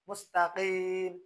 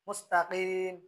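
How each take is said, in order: The two takes are said the same way.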